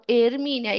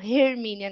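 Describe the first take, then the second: First: The word starts with no h sound. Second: The word starts with an audible h sound. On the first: The speaker calls it right. "Eu falo Hermínia. Esse H tá lá... a gente não lê ele" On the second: The speaker calls it wrong. "É com H, mas eu não falo Hermínia"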